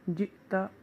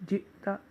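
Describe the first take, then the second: The two takes are said the same way.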